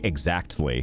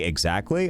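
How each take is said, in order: First: Every syllable is sharply and deliberately enunciated. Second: The word is said casually, without extra care.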